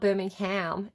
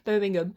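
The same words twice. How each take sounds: First: It is said with an American accent. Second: It is said with a British accent.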